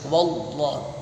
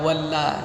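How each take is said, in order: First: The L of Allah is heavy and thick. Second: The L of Allah is light and thin. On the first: The speaker calls it right. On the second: The speaker calls it wrong. "nggak boleh"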